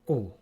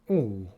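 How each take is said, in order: First: The vowel is held only briefly. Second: The vowel is held for a long time. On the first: "just a little bit shorter and snappier" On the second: "the long version of u"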